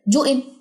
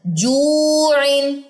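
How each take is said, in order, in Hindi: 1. स्वर छोटा कर दिया जाता है। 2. स्वर को लगभग दो सेकंड तक खींचा जाता है। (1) "ये गलत है।" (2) "दो सेकंड उसकी हरकत है।"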